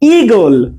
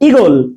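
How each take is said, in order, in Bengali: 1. প্রথম স্বরধ্বনিটি একটু টেনে দীর্ঘ করে বলা হয়। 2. প্রথম স্বরধ্বনিটি ছোট ও দ্রুত। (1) "একটু টেনে একটু টেনে উচ্চারণ হবে" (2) "শর্টকাটে ইগল যখন রস্যই হবে"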